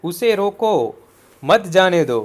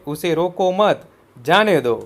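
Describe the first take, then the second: First: "उसे रोको", pause, then "मत जाने दो" together; pause before "मत". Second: "उसे रोको मत" together, then "जाने दो"; pause after "मत". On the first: Teacher showing comma placement, pausing right after "रोको". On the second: Teacher showing the other comma placement, pausing after "मत". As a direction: attach "मत" to "रोको", break before "जाने दो". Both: Shown as a demonstration. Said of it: "तो यह इस तरह लिख सकते हैं".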